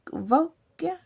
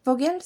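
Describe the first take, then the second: First: Vogue said tentatively as "vog", rising like a question; unsure first stab at the name "Vogue"; unsure pronunciation. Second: Vogels said as a second, more settled attempt, "vo-guels"; self-correcting to "Vogels"; corrected pronunciation. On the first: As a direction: try out "Vogue" as a hesitant guess, voice lifting at the end. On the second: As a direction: fix the name as "Vogels" after the first guess. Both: Real, not acted. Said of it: "Je sais pas trop comment ça se prononce".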